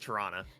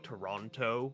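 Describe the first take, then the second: First: The name is said in a relaxed, reduced way. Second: Every syllable is pronounced fully and carefully. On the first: The speaker is a local. The speaker calls it right. "It's Toronto" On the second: The speaker is an outsider to the city. The speaker calls it wrong. "Americans will like overpronounce them. They'll go Toronto"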